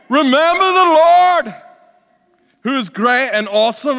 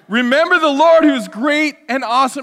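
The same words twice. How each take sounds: First: It is spoken in a put-on Scottish accent. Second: It is spoken in the speaker's normal accent. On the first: "I'm just going to go for my best Scottish accent" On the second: "All right, I'll stop"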